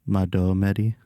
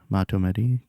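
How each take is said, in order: First: The middle consonant sounds like a d. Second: The middle consonant is not a d sound. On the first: The speaker calls it right. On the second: The speaker calls it wrong.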